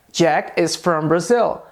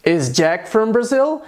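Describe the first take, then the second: First: Slow "Jack is from Brazil" with a settled end; affirmative statement. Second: Slow "Is Jack from Brazil", rising on "Brazil"; question intonation. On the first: Teacher compares the affirmative form, as a slow statement. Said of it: "a frase afirmativa era". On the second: Teacher compares the question form, with a rising tune. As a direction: ask "Is Jack from Brazil", lifting the last word. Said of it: "na pergunta ficou assim". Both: Shown as a demonstration.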